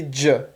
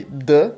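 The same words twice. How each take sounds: First: "j" as a palatal "djuh"; short isolated "j" with D gliding into J; soft DJ sound. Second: "D" as a pure stop "duh"; short isolated hard "D"; hard D sound. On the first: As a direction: say "j" as in dji. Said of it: "ter som de j". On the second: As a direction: say "D" with no J glide. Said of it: "às vezes, som de". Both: Shown as a demonstration.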